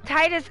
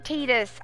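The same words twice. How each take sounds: First: The first syllable sounds like 'tie'. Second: The first syllable sounds like 'tee'. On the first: The speaker calls it right. "It's gotta be Titus" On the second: The speaker calls it wrong. "Teetus is too close to teeter"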